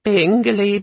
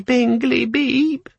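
First: Much higher chirpy device voice, hopeful; high little electronic chirp; hopeful little gadget. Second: Even higher chirp falling into the beep; eager tiny machine, voice climbing; high chirpy gadget beep; hopeful little gadget. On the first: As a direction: chirp it like a tiny eager machine. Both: A narrator's reading. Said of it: "a voice ... said hopefully".

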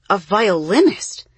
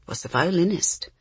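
First: Louder, rising surprised question; surprised echo. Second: Said in the usual way. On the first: A narrator's reading. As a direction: ask it back in astonishment. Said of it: "the kids echoed".

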